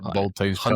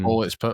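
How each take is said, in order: First: The X is spoken as the word times. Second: The X is spoken as the letter ex. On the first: "There's no times either" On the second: "X doesn't. You don't say the X"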